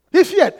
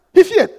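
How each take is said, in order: Both takes have the same delivery.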